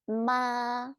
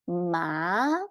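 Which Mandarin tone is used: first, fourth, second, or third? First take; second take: first; second. First: It is said with the first tone. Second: It is said with the second tone. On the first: It means mom. "first tone, means mom" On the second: It means hemp. "Second tone means hemp"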